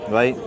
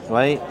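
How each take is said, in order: The two takes are said the same way.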